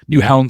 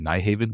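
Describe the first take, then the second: First: The ending sounds like 'hound', with one syllable. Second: The ending sounds like 'haven', with two syllables. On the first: This is how it is actually pronounced locally. The speaker calls it right. "I think it's pronounced Newhound" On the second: This is how it looks from the spelling. The speaker calls it wrong. "so all the Americans say Nyhaven"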